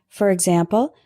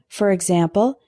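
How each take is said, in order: The two takes are said the same way.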